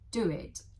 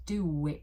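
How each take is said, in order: First: The words are said separately, without linking. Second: A w sound links the two words.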